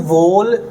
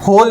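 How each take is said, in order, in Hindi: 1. यह शब्द w की आवाज़ से शुरू होता है। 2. यह शब्द h की आवाज़ से शुरू होता है।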